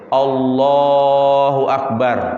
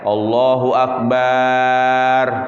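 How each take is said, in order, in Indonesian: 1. Suku kata lah pada Allah dipanjangkan. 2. Suku kata bar di akhir dipanjangkan. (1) "kalimat yang dipanjangkan adalah kalimat Allahnya" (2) "Tidak boleh barnya"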